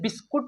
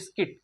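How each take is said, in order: First: The second syllable has an 'oo' vowel. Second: The second syllable has an 'i' vowel. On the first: The speaker calls it wrong. "इसे बिस्कुट नहीं पढ़ेंगे दोस्तों" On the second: The speaker calls it right. "तो इसे हम लोग क्या पढ़ेंगे"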